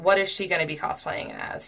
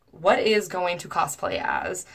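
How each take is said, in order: First: Said in the usual way. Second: Drawn-out question rising on "as"; puzzled stilted reading. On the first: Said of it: "He corrected himself". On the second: Retold or imitated. Reading his mistyped message as written, stilted. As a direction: slowly question it up to "cosplay as?".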